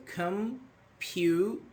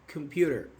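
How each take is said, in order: First: "computer" pulled apart, one syllable at a time; broken into syllables. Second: Said in the usual way. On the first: Shown as a demonstration. Teacher showing students where syllables break, "computer" syllable by syllable. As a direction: stretch "computer" slowly with a gap after each syllable. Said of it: "you say come". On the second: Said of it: "for example, computer".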